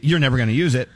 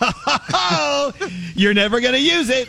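First: It is said plainly, without a wind-up. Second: It is said with a dramatic wind-up.

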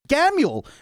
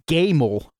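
First: The name ends with a 'yule' sound. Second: The name ends with a 'mel' sound. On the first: The speaker calls it right. "pronounced like glam without the L, and then Yule" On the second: The speaker calls it wrong. "He said it like Gamel"

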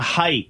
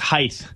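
First: The word ends with a plain 't' sound. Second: The word ends with an added 'th' sound.

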